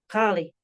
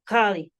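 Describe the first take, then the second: First: The word begins with a gargled throat sound. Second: The word begins with a gargled throat sound.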